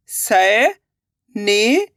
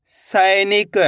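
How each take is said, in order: First: सैनिक stretched very slowly, rising; drawn-out sounding out. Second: Said in the usual way. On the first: Shown as a demonstration. Teacher sounding out सैनिक slowly for pupils. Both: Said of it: "अब आगे देखिए".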